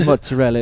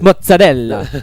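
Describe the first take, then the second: First: It is pronounced the ordinary English way. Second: It is pronounced with a lively Italian accent. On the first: The speaker calls it wrong. "they don't say mozzarella" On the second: The speaker calls it right. "it's mozzarella. That is how it is pronounced"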